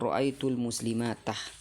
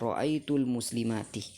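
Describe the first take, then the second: First: The last word does not end in 'i'. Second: The last word ends with an 'i' vowel. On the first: The speaker calls it wrong. "Ini salah" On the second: The speaker calls it right. "Yang benar adalah ... dibaca dengan harkah kasrah"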